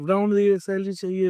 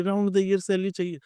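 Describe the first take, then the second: First: Light mock of a demanding kid; mocking whiny kids. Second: The mock demand repeated, falling off; faint parroted whine. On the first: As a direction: mildly parrot impatient kids asking for pay. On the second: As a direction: echo the kids' demand, trailing down. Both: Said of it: "बच्चे पागल की तरह कह रहे हैं".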